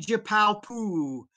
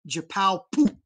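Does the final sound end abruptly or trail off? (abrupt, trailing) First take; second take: trailing; abrupt. First: The final vowel trails off without a glottal stop. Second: The final vowel is cut off by a glottal stop. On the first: The speaker calls it wrong. "Don't say jipao poo" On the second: The speaker calls it right. "Cut that sound off at the end"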